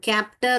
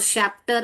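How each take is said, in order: First: The word begins with a k sound. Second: The word begins with a sh sound. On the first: "कैप्टर और शैप्टर नहीं बोलते हैं हम" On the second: "कैप्टर और शैप्टर नहीं बोलते हैं हम"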